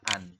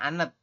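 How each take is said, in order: First: The final letter is dropped, giving one syllable. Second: Every written letter is sounded, giving two syllables. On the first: The speaker calls it right. "menurut aturan baca kita bacanya adalah an" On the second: The speaker calls it wrong. "aturan yang belum paham, teman-teman mungkin akan membacanya anet"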